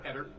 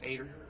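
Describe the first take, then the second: First: The name starts with an 'eh' vowel. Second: The name starts with an 'ay' vowel. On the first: The speaker calls it wrong. "not Joe Eder" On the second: The speaker calls it right. "It's Ader"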